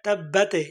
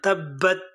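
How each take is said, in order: First: The word ends with an added vowel sound. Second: The word ends cleanly on the consonant. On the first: The speaker calls it wrong. "অনেকে তাব্বাতে ইয়াদা বিলা তাব্বাতে বলে না" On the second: The speaker calls it right. "এভাবে থামবেন"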